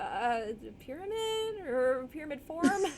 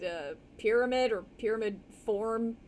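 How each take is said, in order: First: It is said in a nervous, panicky tone. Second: It is said in a frustrated, exasperated tone. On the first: The speaker is frightened by what they see. "I want to try it that way too" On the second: The speaker is fed up with being there. "as if this person was just kind of like frustrated"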